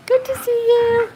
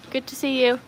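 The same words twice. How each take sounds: First: Very high, slow, loud sing-song; exaggerated high-pitched welcome; gushing greeting. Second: Said in the usual way. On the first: Real, not acted. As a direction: squeal a drawn-out hello.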